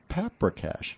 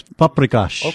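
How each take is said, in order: First: Paprikash said the gringo way, PAP-ruh-kash; american accent spanish. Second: Paprikash said pup-rih-KAHSH, Hungarian style; correct pronunciation. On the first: Real, not acted. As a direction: paprikash with flat American vowels, not pup-ree-kahsh. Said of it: "I always say it like a gringo". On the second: Shown as a demonstration. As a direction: Paprikash with open ah vowels, lower pitch. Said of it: "You're close".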